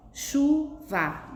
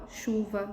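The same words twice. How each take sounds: First: "chuva" partida em chu, va, em tom mais agudo; separação silábica. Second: Said in the usual way. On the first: Shown as a demonstration. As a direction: pronuncie "chuva" sílaba por sílaba, com pausa. ("chuva" silabada para a turma) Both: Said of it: "São palavras formadas por duas sílabas".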